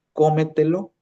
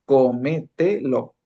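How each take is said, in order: First: Said in the usual way. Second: Cómetelo slowly as có-me-te-lo; four drawn-out, separate syllables in cómetelo. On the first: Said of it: "cuyo acento prosódico va situado". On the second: Shown as a demonstration. Teacher illustrating a four-syllable word, slow and split. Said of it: "vas separando la palabra por sílabas".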